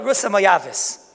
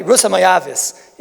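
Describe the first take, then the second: First: Said in the usual way. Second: Slow, dismissive naming of Rus; slow, louder, belittling repeat of Rusa Moyavis; disparaging. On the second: Shown as a demonstration. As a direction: say the name as if looking down on her. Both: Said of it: "Why say it in such a mezulzaldik way".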